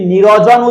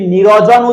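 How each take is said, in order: First: A short vowel sounds between r and j. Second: The same.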